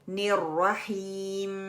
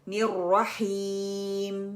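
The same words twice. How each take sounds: First: The h is weakened and the end is nasal. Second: The h is clear and the m is closed on the lips. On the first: The speaker calls it wrong. "हा के तलफ़्फ़ुज़ को ख़राब करना और वक़फ़ नाक में ले जाना" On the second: The speaker calls it right. "मीम lip letter"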